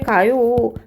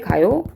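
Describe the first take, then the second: First: The voice falls at the end like a statement. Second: The voice rises at the end like a question. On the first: The speaker is stating that someone is going. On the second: The speaker is asking whether someone is going.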